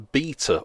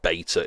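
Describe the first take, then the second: First: It is said in a British accent. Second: It is said in an American accent.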